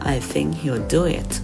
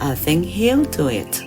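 First: The stress falls on the word do. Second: The stress falls on the word he'll. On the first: The speaker calls it right. "เราจะเน้นเสียงคำที่เป็น main verb ... แต่เราจะพูดว่า" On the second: The speaker calls it wrong. "เราจะไม่เน้นเสียงคำที่เป็น auxiliary verb ... เราจะไม่พูดว่า"

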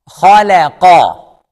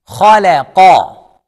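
Both takes have the same delivery.

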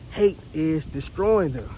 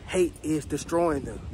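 First: The words are said at a louder, forceful volume. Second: The words are said at normal speaking volume.

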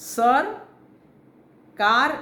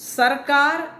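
First: It is said with a pause after the first part. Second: It is said as one word without a pause.

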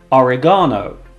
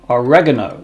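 First: It is said in British English. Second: It is said in American English.

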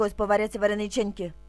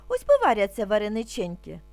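First: It is said at a very fast pace. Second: It is said at a somewhat quicker pace. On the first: "А тепер дуже швидко" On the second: "А тепер трошки швидше"

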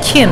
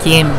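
First: The word begins with a K sound. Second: The word begins with a G sound. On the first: The speaker calls it wrong. "it's not Kim actually" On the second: The speaker calls it right. "it is Gim"

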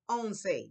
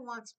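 First: It is pronounced as the Spanish number eleven. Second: It is pronounced like the English word once. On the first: The speaker calls it right. "I say once" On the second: The speaker calls it wrong. "Don't say once"

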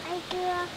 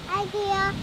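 First: It is said quietly. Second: It is said loudly.

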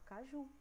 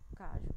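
First: The stress is on the last syllable. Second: The stress is on the first syllable. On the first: The speaker calls it right. "A gente fala caju" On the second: The speaker calls it wrong. "A gente não fala cajo"

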